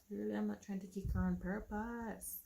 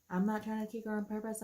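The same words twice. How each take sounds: First: Said in the usual way. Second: Louder, indignant repeat; protesting in pain, louder; exasperated protest. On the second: Retold or imitated. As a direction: insist hard that it's not on purpose. Repeated defensively.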